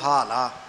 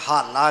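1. ਇਹ ਸ਼ਬਦ ਪੋਲੀ, ਹਲਕੀ ਸ਼ੁਰੂਆਤ ਨਾਲ ਉਚਾਰਿਆ ਜਾਂਦਾ ਹੈ। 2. ਇਹ ਸ਼ਬਦ ਜ਼ੋਰਦਾਰ, ਭਾਰੀ ਸ਼ੁਰੂਆਤ ਨਾਲ ਉਚਾਰਿਆ ਜਾਂਦਾ ਹੈ। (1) "ਹਾਲਾ ਪੋਲੇ ਪਾਠ ਕਰਨਾ ਜੀ" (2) "ਇਹ ਹਾਲਾ ਨਹੀਂ ਕਰਨਾ"

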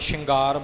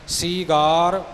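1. ਇਹ ਸ਼ ਨਾਲ ਸ਼ੁਰੂ ਹੁੰਦਾ ਹੈ ਅਤੇ ਇਸ ਵਿੱਚ ਨਾਸਕੀ ng ਧੁਨੀ ਹੈ। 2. ਇਹ ਸ ਨਾਲ ਸ਼ੁਰੂ ਹੁੰਦਾ ਹੈ ਅਤੇ ਇਸ ਵਿੱਚ ਲੰਮੀ ਈ ਧੁਨੀ ਹੈ। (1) "ਆਮ ਤੌਰ 'ਤੇ ਪਾਠੀ ਸ਼ਿੰਗਾਰ ਬੋਲ ਜਾਂਦੇ ਨੇ" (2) "ਸੀਗਾਰ ਸਤਿਗੁਰੂ ਜੀ ਨੇ ਲਿਖਿਆ ਹੈ, ਇਸੇ ਤਰ੍ਹਾਂ ਹੀ ਬੋਲਣਾ ਹੈ"

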